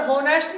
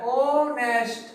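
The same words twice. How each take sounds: First: होनेस्ट with a spoken h at the start; wrong pronunciation. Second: ऑनेस्ट slowly, starting on the vowel with no h; drawn-out ऑनेस्ट, h left silent. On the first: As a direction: say होनेस्ट sounding the h, as the mistake. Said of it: "यहाँ पर होनेस्ट नहीं पढ़ते". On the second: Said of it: "इसको ऑनेस्ट पढ़ा जाता है". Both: Shown as a demonstration.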